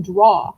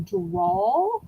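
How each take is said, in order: First: "draw" ending on an open vowel, no L; the misheard word "draw", no L sound; "draw" without L. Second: "drawl" drawn slowly into a final L; slow "drawl", final L sounded. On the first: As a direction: say "draw" with the final L missing. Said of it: "she always thought I was saying". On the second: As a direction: stretch "drawl" and close it on an L. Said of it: "rather than drawl". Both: Shown as a demonstration.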